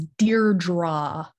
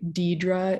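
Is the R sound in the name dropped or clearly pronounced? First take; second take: pronounced; dropped. First: The R sound is clearly and strongly pronounced. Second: The R sound is left out of the name. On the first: The speaker calls it right. "like overpronouncing just to make sure they hear that R" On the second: The speaker calls it wrong. "will say Deirdre instead of R"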